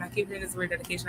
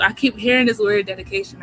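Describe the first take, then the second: First: Softer and fast, to herself; second take, quick soft echo; quick aside. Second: Louder, pressing the point; first take, emphatic and louder. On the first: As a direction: rattle it off quietly to herself. Repeats the phrase, then murmured. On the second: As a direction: announce it with weight. Repeats the phrase, first emphatic. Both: Real, not acted.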